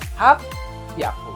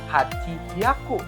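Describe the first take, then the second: First: It is fused, with a doubled p sound. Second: Hachi is said fully, then hyaku with h. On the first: The speaker calls it right. "tapi jadi hap hyaku" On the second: The speaker calls it wrong. "bukan hachi hyaku"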